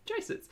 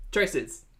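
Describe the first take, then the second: First: Much higher, softer mock squeak; squeaky high repeat. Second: Said in the usual way. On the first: Host repeating his catchphrase to viewers in a squeaky joke voice. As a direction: squeak the word back in a silly voice.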